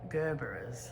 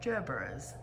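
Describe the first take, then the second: First: It uses the local, non-New Zealand pronunciation. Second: It uses the New Zealand pronunciation. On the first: "Over here, you pronounce it" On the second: "in New Zealand, we would pronounce it"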